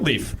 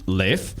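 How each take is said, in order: First: The name is said the American way. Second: The name is said the Icelandic way. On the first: "and then in America" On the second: "in Iceland"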